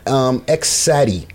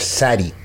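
First: The X is spoken aloud before the name. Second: The X is left silent before the name.

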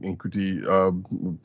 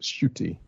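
First: The name begins with an N sound. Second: The name begins with a sh sound. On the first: The speaker calls it wrong. "I did not know it because I was saying Nkuti" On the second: The speaker calls it right. "is pronounced Shooty"

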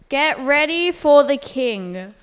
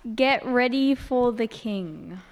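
First: It is said louder. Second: It is said more quietly.

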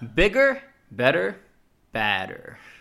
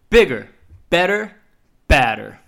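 First: It is said with moderate, lower energy. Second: It is said with loud, high energy.

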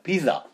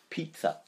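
First: The double z sounds like a plain z. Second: The double z sounds like ts. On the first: "if you go to a Pakistani shop, they will say, would you like pizza?" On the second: "Or it assumes another respiration. Like, for instance, pizza"

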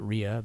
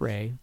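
First: The name is said with two syllables. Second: The name is said with one syllable. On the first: The speaker calls it wrong. "Some people pronounce it Rhea" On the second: The speaker calls it right. "but it's Ray"

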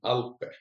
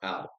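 First: The name is said the longer, original way. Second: The name is said short, like English Alp. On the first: "I started with saying Alpe" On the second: "just Alp, the English word Alp"

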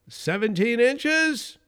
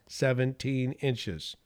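First: It rises at the end like a question. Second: It falls at the end, confidently.

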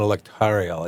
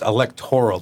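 First: An extra 'ee' sound comes before the final syllable. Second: No extra vowel sound comes before the final syllable. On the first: The speaker calls it wrong. "not electorial" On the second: The speaker calls it right. "It's electoral"

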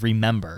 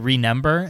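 First: The m and n sounds are standard. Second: The m and n sounds are mixed up. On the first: This is how the word should be said. The speaker calls it right. "instead of remember" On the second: This is how the word was said in childhood. The speaker calls it wrong. "I'd say remember instead of"

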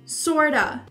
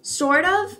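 First: It is blended into one word ending in 'a'. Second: It is said as two separate words. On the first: "como se fosse um A no final" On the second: "ele tem esse som do sort of"

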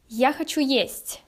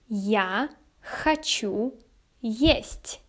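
First: It is said faster. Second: It is said at a normal pace.

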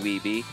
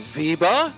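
First: The name is said with an English pronunciation. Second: The name is said with a Dutch pronunciation.

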